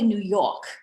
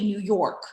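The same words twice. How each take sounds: First: Every sound is carefully and formally enunciated. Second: The sounds are relaxed, like everyday casual speech. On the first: It follows trained, formal diction. The speaker calls it wrong. "I don't say New York. That's not how I talk" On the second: It matches how the speaker normally talks. The speaker calls it right. "I say New York"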